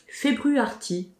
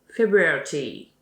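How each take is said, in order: First: It is said with a French accent. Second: It is said with an English accent. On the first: The speaker calls it wrong. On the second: The speaker calls it right.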